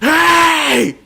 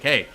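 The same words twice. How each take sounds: First: It is screamed loudly. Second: It is said at an ordinary speaking volume.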